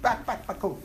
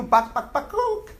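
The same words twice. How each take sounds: First: Quiet clucking chicken, trailing off; soft chicken clucking. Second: High squeaky bakuk cluck; chicken clucking. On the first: Teacher finishing the chicken joke with a quiet cluck. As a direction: cluck it softly under your breath. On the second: Teacher repeating the chicken cluck to tease the class. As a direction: squawk it like a hen. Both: Pretend. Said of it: "How does the chicken sound?".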